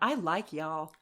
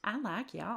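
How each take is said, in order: First: It is read plainly, in a neutral accent. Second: It is read in a coy, winking Southern accent.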